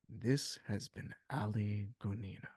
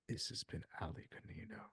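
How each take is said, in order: First: It is said in his normal speaking voice. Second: It is said in a deep Batman voice.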